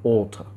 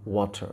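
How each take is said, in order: First: ওয়াটার said the British way, like otha with a crisp t and no r; British pronunciation. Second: ওয়াটার said the American way, like wata with a soft flapped t, said quietly; American pronunciation. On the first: Teacher shows students how the British say ওয়াটার, British pronunciation. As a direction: demo ওয়াটার with a British accent. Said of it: "আর এটাকে যদি ব্রিটিশরা বলে তাহলে এটা বলে ওয়াটার". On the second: Teacher shows students how Americans say ওয়াটার, American pronunciation. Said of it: "এটাকে যদি আমেরিকানরা বলে তাহলে এটা ওরা বলে হচ্ছে ওয়াটার".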